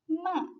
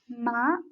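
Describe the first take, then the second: First: The pitch falls sharply from high to low. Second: The pitch rises from middle to high. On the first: "The fourth tone is a lowering tone" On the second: "The second tone is a rising tone"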